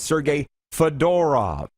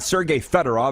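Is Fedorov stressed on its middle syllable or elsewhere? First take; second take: middle; elsewhere. First: The stress is on Fedorov's middle syllable. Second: The stress is not on Fedorov's middle syllable. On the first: The speaker calls it right. "you need to put the emphasis on the middle syllable" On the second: The speaker calls it wrong. "It's not"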